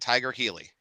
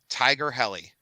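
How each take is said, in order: First: The second word is said like 'heely'. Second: The second word is said like 'helly'. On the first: This is the speaker's habitual misreading. The speaker calls it wrong. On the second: This is the proper name. The speaker calls it right.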